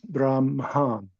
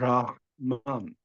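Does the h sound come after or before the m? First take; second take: after; before. First: The m sound comes before the h. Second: The h sound comes before the m. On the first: "pronounce it with the nasal the other way around" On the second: "you pronounce as it is written the H and N"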